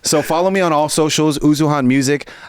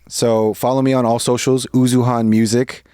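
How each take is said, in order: First: It is said with more energy. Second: It is said with low energy.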